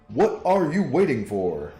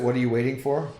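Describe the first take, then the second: First: It is said in a Professor X impression. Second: It is said in his normal voice.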